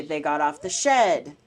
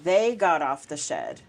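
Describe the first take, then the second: First: Shed stressed at the end; they got off the shed, landing hard on shed. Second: They said heavy and slow; They got off the shed, with They stressed and drawn out. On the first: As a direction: put the weight on shed, falling. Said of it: "or it could say they got off the shed". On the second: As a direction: lean on the word They, slowly. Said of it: "So make one of those words heavy". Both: Shown as a demonstration.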